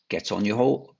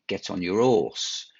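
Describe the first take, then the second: First: It has an Estuary accent with the H pronounced. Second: It has a Cockney accent with the H dropped. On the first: "an estuary accent might say" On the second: "a Cockney accent might be ... and leave out the H as well as the R"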